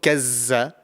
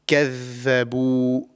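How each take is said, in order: First: The middle consonant is a buzzing 'z' sound. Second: The middle consonant is a voiced 'dh' sound. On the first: The speaker calls it wrong. "it's not kazza" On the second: The speaker calls it right. "This is the correct pronunciation"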